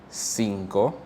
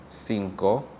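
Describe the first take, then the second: The two takes are said the same way.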